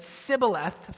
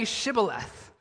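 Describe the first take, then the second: First: "Sibboleth" with s in place of sh; mispronounced password. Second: "Shibboleth" with an sh at the start; "Shibboleth" with a clear hushing first sound; password pronounced correctly. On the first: Retold or imitated. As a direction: start "Sibboleth" on a plain s. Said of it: "he could not pronounce". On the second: Shown as a demonstration. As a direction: say "Shibboleth" slowly, opening on sh. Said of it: "couldn't say the sh sound".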